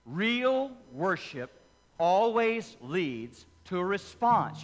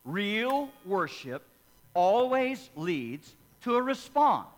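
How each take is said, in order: First: Slow, weighty phrase with REAL and ALWAYS leaned on; "Real worship always leads to a response" slowly, stressing Real and always; slow emphatic repetition. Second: Slow, rising to louder on response; "Real worship always leads to a response" slow and building, loudest on response; building emphatic repetition. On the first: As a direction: lay it down slowly so it sticks. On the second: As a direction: press harder on each word, climbing to the end. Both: Shown as a demonstration. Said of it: "I'll say it again".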